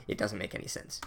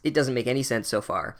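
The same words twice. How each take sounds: First: "It doesn't make any sense" said much softer and lower, trailing off; muttered aside. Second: Said in the usual way. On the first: Acted. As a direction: drop to a resigned under-breath aside. Repeats complaint, then drops voice.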